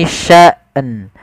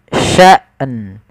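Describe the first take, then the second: Both takes have the same delivery.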